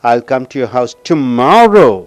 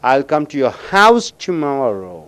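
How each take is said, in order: First: The word tomorrow is stressed. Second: The word house is stressed. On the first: The speaker will come tomorrow, not another day. "நாளைக்கு அழுத்தம் கொடுக்கும்போது" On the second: The speaker will come to the house, not elsewhere. "அந்த ஹவுஸுக்கு அழுத்தம் கொடுக்கும் பொழுது"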